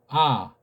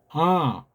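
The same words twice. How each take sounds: First: The sound is plain, relaxed and without force. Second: The sound is lifted and resonates in the head. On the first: "그냥 이 이응자는 그냥 편안하게 아, 아, 아 힘 빼고" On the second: "소리가 더 떠서 올라가게 코 뒤쪽으로 해서 위에 머리를 전체를 이렇게 울릴 수 있게"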